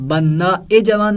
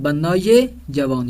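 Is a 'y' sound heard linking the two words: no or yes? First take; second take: no; yes. First: The words are linked by a plain 'e' vowel. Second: The words are linked by a 'ye' sound. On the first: The speaker calls it wrong. "ना" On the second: The speaker calls it right. "या का इजाफा किया जाएगा"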